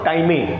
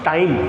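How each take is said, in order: First: The word ends with an extra vowel sound. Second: The word ends with no extra vowel. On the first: The speaker calls it wrong. "Not टाइमे" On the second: The speaker calls it right. "This is टाइम"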